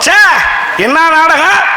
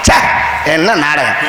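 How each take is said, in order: First: It is said in a delighted, admiring tone. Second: It is said in a scornful, disgusted tone. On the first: The play was wonderful. "அமோகமா இருந்துச்சுன்னு அர்த்தம்" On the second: The play made no sense at all. "மசுரூர விளங்கலைன்னு அர்த்தம்"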